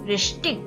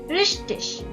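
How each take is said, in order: First: The ending is a hard 'ik' sound. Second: The ending is a soft, hissing 'ich' sound. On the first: "second is ich" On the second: "First is ich"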